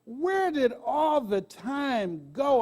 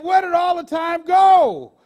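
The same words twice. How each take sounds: First: Slow, drawn-out wondering; wistful, thoughtful question; reflective. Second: Put-on loud, slow cry from the old man; old man's loud lament; crying out the old man's question. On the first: Real, not acted. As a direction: let it hang as you ask yourself. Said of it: "that's what I asked myself". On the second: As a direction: call it out in despair. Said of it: "He said".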